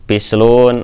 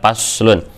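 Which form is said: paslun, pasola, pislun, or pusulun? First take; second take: pislun; paslun. First: It is said with vowels i, u. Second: It is said with vowels a, u. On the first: The speaker calls it wrong. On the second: The speaker calls it right.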